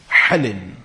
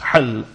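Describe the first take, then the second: First: The word ends with an added 'in' syllable. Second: The word ends on a bare consonant. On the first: "with a kasrah bit tanween" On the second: "you can say with the sukoon"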